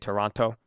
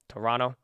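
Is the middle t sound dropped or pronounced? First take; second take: pronounced; dropped. First: The middle t sound is clearly pronounced. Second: The middle t sound is dropped. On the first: Californians do not say it this way. "Like we don't say Toronto" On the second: This is how Californians say it. "people from California, we don't say like our T's"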